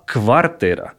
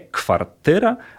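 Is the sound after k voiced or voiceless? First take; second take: voiced; voiceless. First: The w is said as a voiced v. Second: The w is said as a voiceless f. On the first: The speaker calls it right. "a kwartyra. To w jest dźwięczne" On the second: The speaker calls it wrong. "Wtedy trzeba powiedzieć nie kwartyra"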